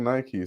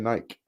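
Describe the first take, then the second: First: It is pronounced the American way, like Nikey. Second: It is pronounced the British way, like Nyke.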